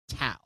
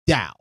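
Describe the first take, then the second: First: The word begins with a hard T sound. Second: The word begins with a D sound. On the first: The speaker calls it wrong. "the way they keep saying Tao" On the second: The speaker calls it right. "It's actually pronounced Dao"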